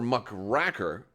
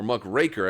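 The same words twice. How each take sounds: First: The middle syllable sounds like 'rack'. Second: The middle syllable sounds like 'rake'. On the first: "as if you were racking a uh, a pool table" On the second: "as if you were raking the leaves"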